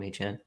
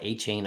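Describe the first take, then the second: First: The second syllable sounds like 'chan'. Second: The second syllable sounds like 'chain'. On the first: It is the form the player himself asked for. "he asked to be pronounced A Chan" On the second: It is the form the speaker personally prefers. "I like A Chain a whole lot better"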